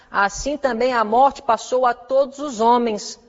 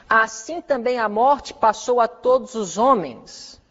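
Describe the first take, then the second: Both takes have the same delivery.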